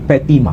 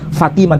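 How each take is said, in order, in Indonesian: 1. Nama ini diawali dengan bunyi P. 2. Nama ini diawali dengan bunyi F. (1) "tapi Petima" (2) "tidak disebut Fatimah"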